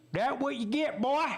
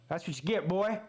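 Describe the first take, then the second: First: Mocking taunt. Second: Said in the usual way. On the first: Fan taunting the injured quarterback. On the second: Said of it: "repeats the taunt in a put-on voice".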